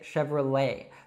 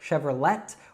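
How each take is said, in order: First: The final T is dropped, ending in open E. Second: The final T sound is pronounced. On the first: The speaker calls it right. "leave off that T sound at the end and pronounce an open E" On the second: The speaker calls it wrong. "we don't say Chevrolet"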